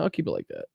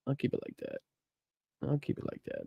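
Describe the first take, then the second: First: Said in the usual way. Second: A near-silent whisper, said to himself. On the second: Real, not acted. Whispering to himself while fiddling with the screen share. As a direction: breathe I'll keep it like that with no voice.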